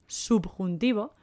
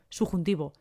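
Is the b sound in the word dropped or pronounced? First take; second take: pronounced; dropped. First: The b sound is clearly pronounced. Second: It is said fast with the b dropped. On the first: "Se escribe subjuntivo" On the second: "lo decimos tan rápido que decimos subjuntivo"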